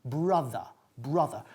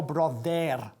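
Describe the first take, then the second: First: "brother" as "BRUH-thuh", falling low; low "brother" with open vowel, no O; correct English vowel. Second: "brother" as "bro-DER" with a sounded final R; wrong "brother", Spanish vowels and ending; Spanish-accented mispronunciation. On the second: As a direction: say "brother" with O and a clear "er". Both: Shown as a demonstration. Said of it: "Y no brother".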